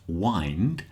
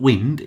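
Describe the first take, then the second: First: The vowel is long, as in 'find'. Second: The vowel is short, as in 'tinned'. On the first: The speaker calls it right. "it's wind, as in what you do with an alarm clock" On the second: The speaker calls it wrong. "but it's not wind"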